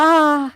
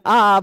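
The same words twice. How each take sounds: First: Clean open "आ" sung out high; pure aa sound. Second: A short pushed "आ" as if hurt or startled; pained "आ". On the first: Teacher demonstrating the pure aa to students, clear and high. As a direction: say "आ" as a pure, plain long vowel pitched up. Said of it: "जैसे हम कहते हैं". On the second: Teacher showing students the aa of sudden pain, pushed out. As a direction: blurt "आ" like a sudden cry of pain. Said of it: "ऐसे भी बोलते". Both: Shown as a demonstration.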